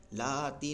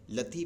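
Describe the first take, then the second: First: لاتی with the a stretched, the wrong way; the mistake: drag out the a in لاتی; wrong stretched vowel; wrong long a. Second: لتی said quickly with a short a; quick short vowel. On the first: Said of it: "لاتی نہیں پڑھیں گے". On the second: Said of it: "جلدی سے پڑھیں گے لتی". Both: Shown as a demonstration.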